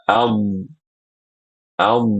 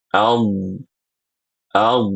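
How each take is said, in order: The two takes are said the same way.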